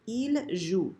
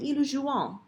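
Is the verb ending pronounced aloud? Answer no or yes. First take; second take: no; yes. First: The verb ending is silent. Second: The verb ending is pronounced aloud. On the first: The speaker calls it right. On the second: The speaker calls it wrong.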